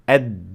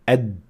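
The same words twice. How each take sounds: First: The final consonant is released with a small burst. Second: The final consonant is held and sounds muffled. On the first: The speaker calls it right. "they should sound like this" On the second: The speaker calls it wrong. "A letter sounds very muffled"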